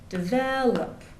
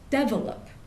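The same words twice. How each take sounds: First: The stress is on the second syllable. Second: The stress is on the first syllable. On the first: "In American English, the stress goes on the second syllable" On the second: "in Indian English, um, they'll often put the stress on the first syllable. So they'll say develop"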